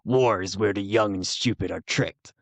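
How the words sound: It is said in a put-on character voice. "Can you do it in the voice of Solid Snake"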